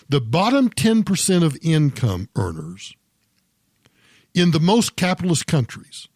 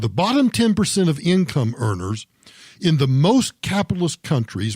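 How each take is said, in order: First: It is spoken slowly and deliberately. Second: It is spoken at a normal, quicker pace.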